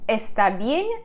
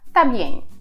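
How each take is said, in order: First: Every sound of both words is pronounced. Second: Sounds are dropped in lazy speech.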